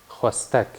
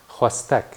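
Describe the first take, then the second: The two takes are said the same way.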